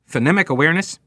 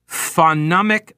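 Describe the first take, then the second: First: Said in the usual way. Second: "phonemic" sounded out slowly, syllable by syllable; "phonemic" spelled out by sound, drawn out and halting; sounding out words. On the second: Real, not acted. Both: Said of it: "See, I sounded that out".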